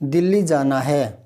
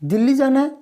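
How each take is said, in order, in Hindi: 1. यह सीधे, सामान्य ढंग से बोला गया है। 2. यह साफ़ हैरानी के साथ बोला गया है।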